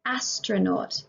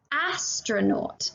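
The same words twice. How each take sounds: First: Said in the usual way. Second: "Astronaut" very slow, each syllable drawn out; deliberately slowed "Astronaut" for children; slow sound-out. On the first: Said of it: "repeat plain". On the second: Shown as a demonstration. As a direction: stretch "Astronaut" so the first "ah" is clear. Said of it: "teacher sounds out word".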